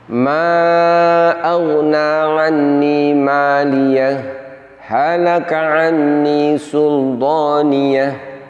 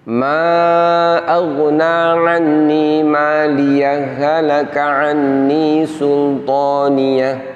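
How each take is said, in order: First: There is a full stop after maliyah. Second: Maliyah runs straight on without a pause.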